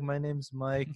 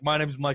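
First: It sounds shy and hesitant. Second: It sounds bold and cocky.

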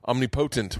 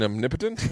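First: The stress falls on the 'po' of potent. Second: The stress falls on the second syllable, 'nip'. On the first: The speaker calls it wrong. "I was saying omnipotent when I was a kid" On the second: The speaker calls it right. "I think you mean omnipotent"

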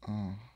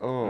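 First: It sounds like a weird, drawn-out moan. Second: It sounds like a plain, normal exclamation.

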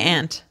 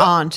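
First: It is said without a Boston accent. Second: It is said with a Boston accent.

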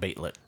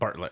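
First: The first syllable has no R, sounding 'bait'. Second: The first syllable has an R sound, 'bart'. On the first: The speaker calls it wrong. "the R looked like an I" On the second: The speaker calls it right. "Bartlett, not Baitlett"

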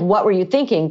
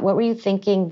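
First: The question sounds critical and judging. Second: The question sounds open and curious. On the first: The listener disapproves of the decision. The speaker calls it wrong. "Not like" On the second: The listener genuinely wants to understand the decision. The speaker calls it right. "And then tell me about, like, why you decided to do that"

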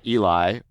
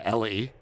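First: The name is said like Eli. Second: The name is said like Ellie. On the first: "not Eli" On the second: "or Ellie"

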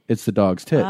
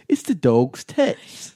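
First: It is said in the speaker's own plain accent. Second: It is said in a put-on British English accent.

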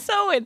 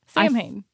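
First: It is said as 'sow-in' without those sounds. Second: It is said with clear 'm' and 'h' sounds. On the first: It follows the listed pronunciation. The speaker calls it right. "Right here it says pronounce Sowin" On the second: It is read the way it is spelled. The speaker calls it wrong. "It looks like Sam Hain"

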